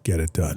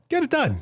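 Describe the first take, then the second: First: It is said flatly, without extra emphasis. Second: It is said forcefully, with strong emphasis. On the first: It is a plain, matter-of-fact request. "If you take the phrase "get it done" with a period" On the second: It is an urgent, insistent demand. "But if it's one exclamation point"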